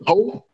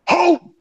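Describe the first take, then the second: First: The word is said in a neutral tone. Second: The word is said with angry vitriol.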